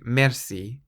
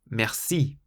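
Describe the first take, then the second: First: The stress is on the first syllable. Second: The stress is on the second syllable. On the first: The speaker calls it wrong. "rather than saying merci" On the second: The speaker calls it right. "you're really emphasizing the second syllable"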